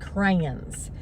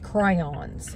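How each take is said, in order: First: The word sounds like crowns, one syllable. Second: The word is said as crayons, two syllables. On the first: The speaker calls it wrong. "I was guilty, honestly, um, until I was um, i- almost thirty, of saying crayons" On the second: The speaker calls it right. "It's crayons"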